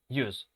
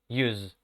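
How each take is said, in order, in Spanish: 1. La palabra termina en un sonido de s silbante. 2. La palabra termina en un sonido de z zumbante. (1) "se va a pronunciar con la S, porque es un sustantivo" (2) "el sonido de consonante final"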